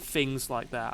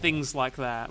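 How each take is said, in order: First: The first word begins with an f sound. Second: The first word begins with a th sound. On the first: This is how the speaker used to talk. "rather than" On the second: This is how the speaker talks now. "I say think a lot more now and things like that"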